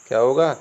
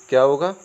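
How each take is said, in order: Both takes have the same delivery.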